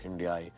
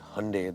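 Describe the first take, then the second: First: The word is said not rhyming with Sunday. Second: The word is said to rhyme with Sunday. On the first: This is how people in India usually say it. "we obviously pronounce it as Hyundai" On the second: This is how the company's team said it should sound. "they told me, like Sunday"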